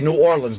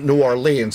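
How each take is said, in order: First: It is pronounced the way local Southerners say it. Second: It is pronounced the way Northern outsiders say it. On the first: The speaker fits in with the locals. The speaker calls it right. "I learned how to say New Orleans" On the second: The speaker is marked as an outsider from the North. The speaker calls it wrong. "not New Orleans, otherwise they call you a damn Yankee"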